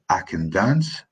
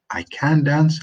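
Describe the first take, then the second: First: Scots accent with a reduced "can". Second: Said in the usual way. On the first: Shown as a demonstration. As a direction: say "can" short and unstressed, the Scots way. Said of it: "In Scots, we say". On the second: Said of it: "For example, I say".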